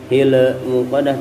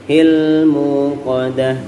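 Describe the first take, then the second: First: The L sound bounces with an added echo. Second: The L sound is held still without bounce. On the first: The speaker calls it wrong. "jangan sampai mantul. Bukan" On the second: The speaker calls it right.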